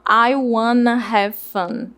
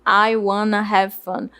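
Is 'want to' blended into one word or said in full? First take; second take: blended; blended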